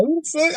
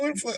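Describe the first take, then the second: First: High, startled what the fuck; mock alarm, thrown way up high; shocked disbelief. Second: High but softer, almost under the breath; hushed shocked echo. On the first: Friend picturing his buddy's silence, a high startled what the fuck. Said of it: "I'm like". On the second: Retold or imitated. Same shock said again, high and hushed. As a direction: repeat it, quieter, stunned. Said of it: "I was like".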